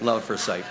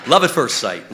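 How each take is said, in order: First: Said in the usual way. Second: "love at first sight" said loud with a hard hit on "love"; "love at first sight" as a loud proud declaration; emphatic. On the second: Shown as a demonstration. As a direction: punch "love" and let the phrase fall.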